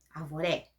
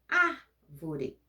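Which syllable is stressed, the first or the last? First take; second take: last; first. First: The stress is on the last syllable. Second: The stress is on the first syllable. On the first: "Se o mais forte fosse o re, arvoré, seria oxítono" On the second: "Se for o ar, árvore, proparoxítono"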